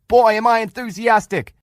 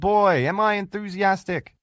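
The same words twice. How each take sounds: First: It is shouted loudly and excitedly. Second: It is said flatly and quietly.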